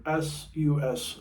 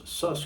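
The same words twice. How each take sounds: First: "S U S" spelled letter by letter. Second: "sus" said as one word rhyming with bus. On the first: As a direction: say "S U S" as three separate letters. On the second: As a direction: say "sus" as a single syllable. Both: Shown as a demonstration. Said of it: "What are suspended or S U S, sus chords?".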